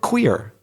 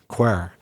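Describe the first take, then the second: First: The word has a standard English vowel. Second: The word has a Northern Irish vowel. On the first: "a variation of the word queer" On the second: "in Northern Ireland, people might say"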